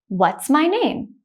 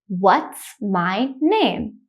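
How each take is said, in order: First: The sentence is spoken quickly. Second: The sentence is spoken slowly. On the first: "the next time I will say it quickly like a native speaker" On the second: "The first time I will say it slowly"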